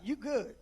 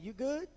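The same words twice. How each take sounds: First: It sounds warm and reassuring. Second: It sounds like a concerned, checking question. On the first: Reassuring someone that they are fine. "Let's say you want to encourage somebody" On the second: Asking whether someone is okay. "let's say you want to check on somebody"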